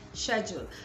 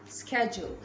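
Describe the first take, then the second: First: It is said with a British pronunciation. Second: It is said with an American pronunciation. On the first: "in British English it is schedule" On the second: "Americans would pronounce this as schedule"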